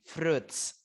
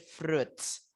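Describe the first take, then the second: Both takes have the same delivery.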